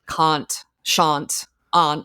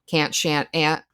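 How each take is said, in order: First: The words are said in a put-on accent. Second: The words are said in a plain accent. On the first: The character is pretending to be her sister. "when she's acting as Sharon, like" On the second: The character speaks in her own natural way. "instead of"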